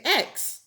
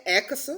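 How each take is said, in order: First: X said as one syllable, "eks"; American pronunciation. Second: X said as "EK-uh-suh"; Nigerian pronunciation. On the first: Showing how Americans say the letter, X as crisp "eks". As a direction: close X straight on the s, no added vowel. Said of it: "In America, they say X". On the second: Immigrant showing how Nigerians say the letter, X as "ek-uh-suh". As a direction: say X with an added vowel, "ek-uh-suh". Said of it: "in Nigeria, eh, eh, you know, in Nigeria, I would say". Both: Shown as a demonstration.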